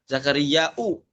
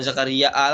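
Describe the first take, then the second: First: The word ends with a glottal stop and 'u'. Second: The word ends with a glottal stop and 'a'. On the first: "dom dhammah hamzanya" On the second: "bukan Zakaria A lagi"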